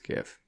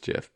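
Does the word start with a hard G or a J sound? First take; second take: hard G; J sound. First: It starts with a hard G sound. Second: It starts with a soft J sound. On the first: This is the form the speaker prefers. The speaker calls it right. "I think it's GIF. ... the G in GIF stands for graphic" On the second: This is the form other people use. The speaker calls it wrong. "People say it's GIF"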